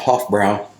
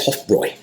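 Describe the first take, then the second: First: The second syllable rhymes with 'cow'. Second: The second syllable rhymes with 'boy'. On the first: The speaker calls it wrong. "I've been calling it a Hofbrau" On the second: The speaker calls it right. "the correct German pronunciation is Hofbräu"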